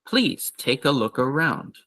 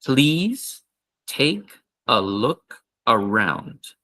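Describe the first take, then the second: First: Quicker, natural invitation; faster natural read. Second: Slow invitation, please lifted; slow repeat. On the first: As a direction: say it at normal speed. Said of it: "so faster it would be". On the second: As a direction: drill it slowly again. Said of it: "one more time". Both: Shown as a demonstration.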